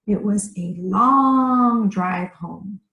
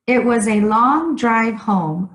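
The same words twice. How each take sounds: First: "long" stretched out slowly; slow down and draw out "long"; drawn-out LONG. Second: Said in the usual way. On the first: Shown as a demonstration. Teacher repeats the exercise sentence, drawing out "long" slowly.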